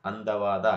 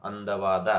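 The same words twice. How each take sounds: The two takes are said the same way.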